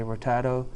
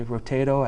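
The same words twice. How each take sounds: First: Rotato with an open 'ah' in the middle; playful ro-TAH-to for rotato; broad A pronunciation. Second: Rotato with a long 'ay' in the middle; long A pronunciation. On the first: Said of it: "I say rotato". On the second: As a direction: say rotato as ro-TAY-to. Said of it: "You say rotato". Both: Shown as a demonstration.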